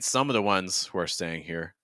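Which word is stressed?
some. The word some carries the main stress. "I'm wondering if the stress is actually on some"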